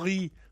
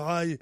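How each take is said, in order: First: The word is read with French spelling sounds. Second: The word is said with English sounds. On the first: The speaker calls it wrong. "je prononçais à la française" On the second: The speaker calls it right. "pour dire"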